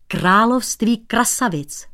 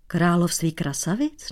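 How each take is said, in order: First: Slow emphatic "království krasavic". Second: Puzzled question. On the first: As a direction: lean on "království" with a falling close. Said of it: "Tohle je, holoubku". (důrazně "království krasavic") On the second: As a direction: echo it back, baffled. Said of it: "Nechápal cizinec". (nechápavě "Království krasavic?") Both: Acted.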